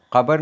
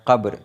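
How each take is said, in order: First: कब्र said as kabar, with an added vowel; wrong pronunciation. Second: कब्र said as qabr, with a throaty q and no middle vowel; a short, firm qabr; correct pronunciation. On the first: Teacher repeats the wrong way, saying kabar. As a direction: split it into ka-bar. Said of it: "कब्र नहीं होता". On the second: Teacher settles on the right form, qabr. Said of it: "तो कब्र है". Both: Shown as a demonstration.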